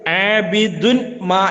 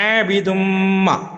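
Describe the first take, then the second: First: The n is pronounced separately before ma. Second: The n merges into a nasal m sound. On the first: The speaker calls it wrong. "ആബിദുൻ മാ എന്നല്ല" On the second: The speaker calls it right. "കൂട്ടി ഓതണം"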